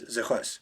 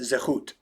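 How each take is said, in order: First: It is said in the Ashkenazi pronunciation. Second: It is said in the Sephardic pronunciation.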